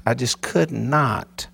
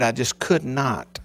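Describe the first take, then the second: First: Half-speed, every word weighed; slow emphatic repeat. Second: Said in the usual way. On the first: Real, not acted. Pastor stressing "I just could not" to his congregation. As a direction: drag out "I just could not" to press it home.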